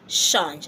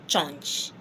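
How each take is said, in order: First: The word begins with a soft sh sound. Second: The word begins with a hard ch sound. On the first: The speaker calls it right. "I said shh, change" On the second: The speaker calls it wrong. "I didn't say change"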